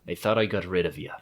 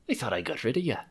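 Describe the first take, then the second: First: It is said in a rougher, grizzled voice. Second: It is said in a pirate voice.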